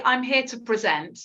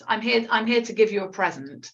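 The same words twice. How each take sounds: First: "present" as the verb, pre-ZENT; stressed second syllable. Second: "present" as the noun, PREZ-ent; stressed first syllable. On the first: Teacher contrasts verb with noun, "present" stressed on second syllable. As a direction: land the stress on the end of "present". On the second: Teacher contrasts noun with verb, "present" stressed on first syllable. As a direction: put the stress on the start of "present". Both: Shown as a demonstration. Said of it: "you can see if I say".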